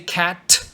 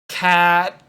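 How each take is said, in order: First: The final T is released with a puff of air. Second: The final T is cut off abruptly without release. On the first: The speaker calls it wrong. "Don't do that" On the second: The speaker calls it right. "And you stop really fast"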